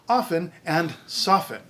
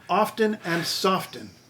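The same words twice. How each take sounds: First: The T sound is silent in both words. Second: The T sound is pronounced in both words. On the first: The speaker calls it right. "the T is supposed to be silent" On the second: The speaker calls it wrong. "I know these ones"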